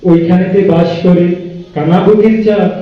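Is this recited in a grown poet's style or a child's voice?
poet's style. It is recited in a grown poet's solemn style. A poet is reciting the poem. "ওনাকে দিলে উনি এভাবে কবিতা আবৃত্তি করবেন"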